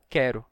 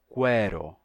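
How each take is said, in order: First: The word begins with a plain 'k' sound. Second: The word begins with a 'kw' sound. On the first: This is the form used today. "até dar o quero que a gente tem hoje" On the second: This is the older form of the word. "então aí a gente teria quero"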